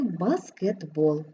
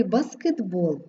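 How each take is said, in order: First: "баскетбол" said slowly and lower, т as voiced d. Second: Said in the usual way. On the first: Shown as a demonstration. Teacher showing assimilation in баскетбол, voiced d, slow. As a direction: drag out "баскетбол" with a d before b. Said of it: "І будемо вимовляти". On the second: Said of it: "ми пишемо «ти»".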